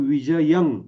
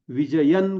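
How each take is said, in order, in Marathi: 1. शब्दाचा शेवट ng आवाजाने होतो. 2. शब्दाचा शेवट n आवाजाने होतो. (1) "तशा पद्धतीनं न करता तो विजयं असाच होतो" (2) "विजयन करता येईल"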